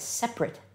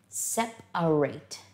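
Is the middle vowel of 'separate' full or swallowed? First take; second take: swallowed; full. First: The middle vowel is dropped or swallowed. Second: The middle vowel is clearly pronounced. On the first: It describes things that are not together. "I swallow the A in the middle" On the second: It names the action of taking things apart. "we pronounce the A in the middle"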